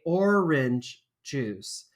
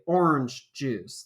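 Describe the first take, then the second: First: Orange is said with two syllables. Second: Orange is said with one syllable. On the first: "I always say orange juice" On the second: "like it's one syllable"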